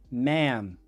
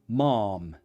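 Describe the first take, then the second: First: It is said in an American accent. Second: It is said in a British accent. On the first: "American English" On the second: "British English"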